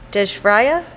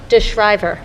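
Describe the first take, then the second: First: The name ends with a 'raya' sound. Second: The name ends with a 'river' sound. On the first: The speaker calls it wrong. "Am I saying that right? No, not even close?" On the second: The speaker calls it right. "DeShriver, okay"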